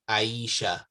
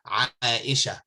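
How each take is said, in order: First: The name is said the common, everyday way. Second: The name is said with its Arabic sounds. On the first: The speaker calls it wrong. "it's common amongst the people to say Aisha" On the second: The speaker calls it right. "this is uh the correct way to pronounce it in Arabic"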